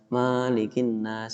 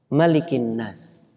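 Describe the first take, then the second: First: The first vowel of Malik is long. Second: The first vowel of Malik is short. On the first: The speaker calls it wrong. "saya termasuk yang pernah menghafal dengan cara yang salah" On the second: The speaker calls it right. "hanya ada satu cara baca, yaitu pendek"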